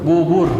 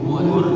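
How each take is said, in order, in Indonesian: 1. Vokal diucapkan dengan bibir membulat, dimonyongkan ke depan. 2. Vokal diucapkan dengan bibir membulat, dimonyongkan ke depan.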